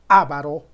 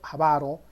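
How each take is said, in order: First: The stress is on the first syllable. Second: The stress is on the second syllable. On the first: The speaker calls it wrong. "no se dice ávaro" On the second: The speaker calls it right. "Se dice avaro"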